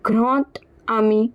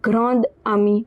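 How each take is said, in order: First: The words link with a t sound. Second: The words link with a d sound. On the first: The speaker calls it right. "this D will be pronounced as T" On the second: The speaker calls it wrong. "instead of"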